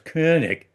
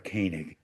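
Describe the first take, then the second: First: The name has its original German-style sound. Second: The name has an English-style sound. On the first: The speaker calls it right. "if you're going to pronounce it correctly, it's of course" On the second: The speaker calls it wrong. "if you're going to mispronounce it, which I do anyway, I prefer"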